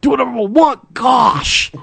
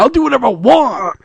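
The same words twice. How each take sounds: First: High, whiny shout; bratty teen whine. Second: High whiny brat voice; bratty whine. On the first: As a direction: whine it like a sulky teenager. Napoleon Dynamite style whine. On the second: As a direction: whine it like a spoiled teen. Mock defiant brat voice. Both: Acted.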